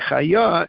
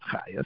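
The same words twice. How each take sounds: First: The stress is on the last syllable. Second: The stress is on the first syllable. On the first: It refers to a living time, a year on. The speaker calls it right. "The accent is on the yud" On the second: It refers to a midwife. The speaker calls it wrong. "The trup is not on the ches"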